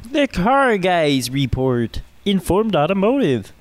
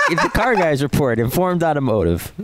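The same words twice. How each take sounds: First: Poor, higher frog puppet voice; slow, hammed-up Kermit impression. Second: Said in the usual way. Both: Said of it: "poor Kermit the Frog impression".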